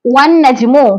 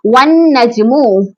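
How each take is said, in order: First: Said in the usual way. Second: वन नजमु drawn out very slowly, doubled न held; slow recitation demo. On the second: Shown as a demonstration. Teacher showing students the joined नून, very slowly recited. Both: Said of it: "जैसे यहाँ पर देखिए".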